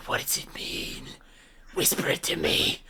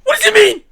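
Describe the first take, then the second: First: Soft voiceless whisper; whisper, half laughing at the end. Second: Loud, high, urgent demand; loud frantic demand; demanding shout. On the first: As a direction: breathe it out in a whisper. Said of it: "I whisper through the chain". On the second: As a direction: shout it at him, desperate to know. Desperate player demands the meaning. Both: Acted.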